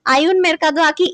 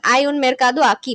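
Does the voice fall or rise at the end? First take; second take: rise; fall. First: It is said as a question, rising. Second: It is said as a statement, falling.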